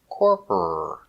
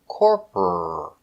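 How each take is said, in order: Both takes have the same delivery.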